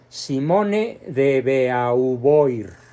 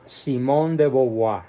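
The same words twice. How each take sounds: First: It is read as spelled, final R sounded. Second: It is said the French way, final R silent. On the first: The speaker calls it wrong. "lo pronuncio como se escribe" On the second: The speaker calls it right. "cuando está bien pronunciado ... sin la R del final"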